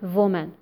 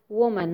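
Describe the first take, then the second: First: The word begins with a buzzing V sound. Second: The word begins with a rounded W sound. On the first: The speaker calls it wrong. "not woman" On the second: The speaker calls it right. "It's woman"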